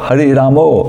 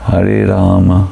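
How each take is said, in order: First: The final vowel of Rama sounds like o. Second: The final vowel of Rama is short, barely audible. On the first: "That is typical Bengali pronunciation" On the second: "It is very short, the second A, and sometimes it's not audible"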